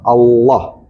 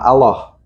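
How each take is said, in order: First: The 'l' is heavy, with a full rounded sound. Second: The 'l' is light, with a thin sound. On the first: The speaker calls it right. "harus bulat, harus tebal" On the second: The speaker calls it wrong. "bukan bukan"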